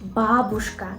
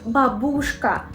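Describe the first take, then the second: First: The stress falls on the first syllable. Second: The stress falls on a later syllable. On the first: The speaker calls it right. "The first syllable is stressed" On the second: The speaker calls it wrong. "They say babushka, which is absolutely incorrect"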